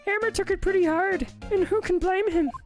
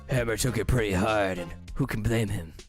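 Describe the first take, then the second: First: It is said in a lighter, easier voice. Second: It is said in a deep smoker voice.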